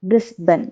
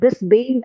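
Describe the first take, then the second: First: The final syllable is a reduced 'bun' sound. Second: The final syllable is a full 'bane' sound. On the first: The speaker calls it right. "Pronounce ചെയ്യേണ്ടത് ബ്രിസ്ബൻ ആണ്" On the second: The speaker calls it wrong. "Spelling വെച്ച് നോക്കുകയാണെങ്കിൽ ബ്രിസ്ബെയിൻ ആണ്"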